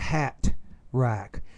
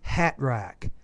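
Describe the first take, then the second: First: The T is pronounced clearly and fully. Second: The T is dropped or barely pronounced. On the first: The speaker calls it wrong. "We typically won't say" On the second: The speaker calls it right. "We'll just say"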